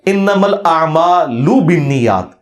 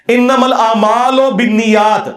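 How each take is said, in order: First: Slow انما الاعمال بالنیات with a clean Arabic ending; correct Arabic. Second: Slow انما الاعمال بالنیات in the clerics' majhool style, ending لامالو; wrong reading. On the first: Correcting the clerics' hadith recitation, slow and precise. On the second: Mocking how clerics recite the hadith, slow majhool. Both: Shown as a demonstration. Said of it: "یہ لفظ ہی غلط ہے".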